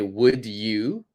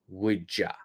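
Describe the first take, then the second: First: The word 'you' is said in full. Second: The word 'you' is reduced to 'ya'. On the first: "we can always say would you" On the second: "That's the pronunciation I would use"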